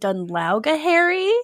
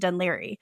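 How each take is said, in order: First: The name is sounded out with many syllables. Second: The name is said short with few syllables. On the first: The person is reading the unfamiliar name off the page. The speaker calls it wrong. "she's just trying to figure out how to pronounce it" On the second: The person knows the local pronunciation. The speaker calls it right. "Actually, it's pronounced Dunleary"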